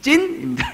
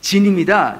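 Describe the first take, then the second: First: The name starts with a tense consonant. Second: The name starts with a lax consonant. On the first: Listeners can understand the name. The speaker calls it right. "제 이름은 진이 아니라 찐이에요" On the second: Listeners cannot understand the name. The speaker calls it wrong. "제가 진이라 그러면은 하나도 못 알아들어요"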